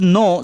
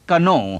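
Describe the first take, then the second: First: The word begins with an n sound. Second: The word begins with a k sound. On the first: The speaker calls it right. "Silent letters का कोई मतलब नहीं" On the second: The speaker calls it wrong. "आप नहीं कहते कनो"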